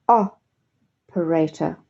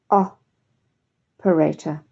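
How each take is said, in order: The two takes are said the same way.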